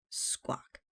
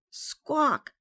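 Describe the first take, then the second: First: Soft, hushed parrot squawk. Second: Loud, high parrot squawk. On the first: Parrot on Captain's shoulder, squawking very softly. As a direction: squawk it gently, under the breath. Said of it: "very softly". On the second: Parrot squawks at Matey, very loudly. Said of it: "very loudly". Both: A narrator's reading.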